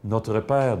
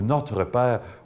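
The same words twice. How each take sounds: First: It is said in a flat, detached way. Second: It is said in a warm, heartfelt way. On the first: The Father stays outside and changes little in one's life. The speaker calls it wrong. "c'est extérieur à moi, ça ne peut pas changer grand-chose à ma vie" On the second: Someone who is love bursts into one's life. The speaker calls it right. "oh ça, c'est tout à fait autre chose"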